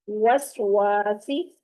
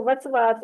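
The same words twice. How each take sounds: First: वसवासी slow and stretched, with rounded w. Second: वसवास quickly with v sounds, lips unrounded; unrounded, wrong. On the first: Teacher correcting the wrong reading, slow rounded w. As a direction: draw out वसवासी, rounding lips on each w. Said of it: "होंठों को गोल करते हुए". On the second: Teacher showing how not to read it, unrounded v. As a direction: say वसवास casually, without rounding, as a mistake. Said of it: "इसको वसवास नहीं पढ़ना". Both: Shown as a demonstration.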